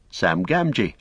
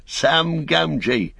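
First: Said in the usual way. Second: Called out high and slow, much higher; shouted greeting. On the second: A narrator's reading. Sam calling to the Cotton family at the door, slow high shout. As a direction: shout his name so they know him. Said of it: "shouted Sam".

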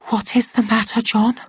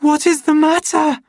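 First: Hushed, high-pitched anxious question; frightened whisper. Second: Very high, loud panicked cry; near scream. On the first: Lenina facing his mad stare, frightened hushed high voice. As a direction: ask it timidly, high and scared. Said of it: "she whispered". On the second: Lenina to the silent man gripping her, almost screaming. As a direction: shriek the question in terror. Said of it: "she almost screamed". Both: A narrator's reading.

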